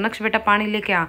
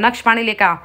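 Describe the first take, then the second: First: It is said lovingly and gently. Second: It is said in a harsh, angry tone.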